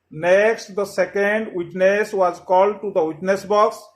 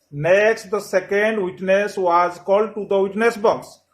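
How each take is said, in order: Both takes have the same delivery.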